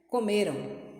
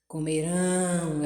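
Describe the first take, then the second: First: The ending is short and quick. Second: The ending is drawn out and prolonged. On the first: The action happened in the past. "quando é o passado, que é comer, você é bem breve, bem rápido" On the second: The action will happen in the future. "ele dá uma prolongada na extensão da sua voz"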